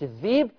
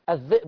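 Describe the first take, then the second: First: The hamza is replaced by a long vowel. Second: The hamza is said as a glottal stop. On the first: This is Warsh's reading. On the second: This is the original reading.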